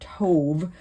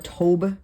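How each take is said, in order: First: The word ends with a V sound. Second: The word ends with a B sound.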